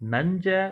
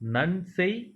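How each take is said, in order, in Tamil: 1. இந்த வார்த்தை குறுகிய 'ja' ஒலியில் முடியுது. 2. இந்த வார்த்தை 'sey' ஒலியில் முடியுது. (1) "நஞ்ச புஞ்ச அப்படின்னு சொல்லாம" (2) "நன்செய் புன்செய் அப்படின்னு சொல்லணும்"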